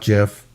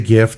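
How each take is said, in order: First: It begins with a soft J sound. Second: It begins with a hard G sound. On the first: The speaker calls it wrong. "not GIF. Uh, it's not like Jiffy peanut butter" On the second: The speaker calls it right. "I say GIF ... It's GIF, like in gift"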